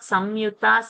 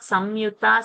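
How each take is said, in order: First: The nasal before the y sounds like m. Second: The nasal before the y sounds like m.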